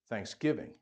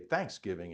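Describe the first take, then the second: First: The stress is on the second syllable. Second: The stress is on the first syllable. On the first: This is how northerners say it. "Up north, the accents on the second syllable. We say Thanksgiving" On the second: This is how southerners say it. "And down south, you say Thanksgiving"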